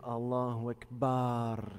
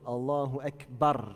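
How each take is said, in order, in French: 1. La voyelle finale de Akbar est prolongée, longue. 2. La voyelle finale de Akbar reste courte. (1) "Il y a le fait de dire Allahu Akbar, comme ça. Bar" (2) "on s'arrête sur le B, il y a juste une voyelle"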